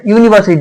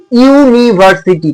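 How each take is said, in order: First: Said in the usual way. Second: ইউনিভার্সিটি slowly, syllable by syllable; ইউনিভার্সিটি drawn out so each syllable stands apart; sounded-out pronunciation. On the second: Shown as a demonstration. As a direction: break ইউনিভার্সিটি into ইউ-নি-ভার-সি-টি. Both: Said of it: "উচ্চারণটা কিরকম হচ্ছে".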